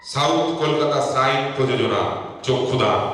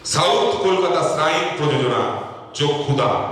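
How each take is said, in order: Both takes have the same delivery.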